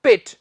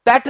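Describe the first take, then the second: First: पिट with short i, pit; correct vowel. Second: पेट with an open e, pet; wrong vowel. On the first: Teacher corrects the syllable, पिट with short i. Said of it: "पेट नहीं". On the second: Teacher rejects a syllable, पेट with clear e. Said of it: "नहीं". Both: Shown as a demonstration.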